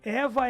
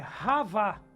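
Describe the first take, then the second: First: The name begins with a plain vowel. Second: The name begins with a rasping throat sound. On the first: This is the Portuguese form of the name. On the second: This is the original Hebrew form of the name.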